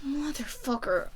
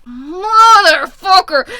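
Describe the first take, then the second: First: Muted curse. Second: Loud, high, drawn-out curse; exasperated yell. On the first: Reader cursing the love triangle, muted exasperation. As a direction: let it slip out quietly. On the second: Reader cursing the love triangle, drawn-out frustrated yell. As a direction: wail it slowly at full volume. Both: Real, not acted.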